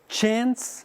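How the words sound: It is said with an American accent.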